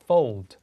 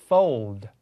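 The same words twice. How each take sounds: First: British-accented Fold, pitched lower. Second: American-accented Fold. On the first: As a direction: say Fold as a British speaker would. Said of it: "브리티시 액센트로". (영국식 발음) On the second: Repeats American model before British one. (미국식 발음) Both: Shown as a demonstration.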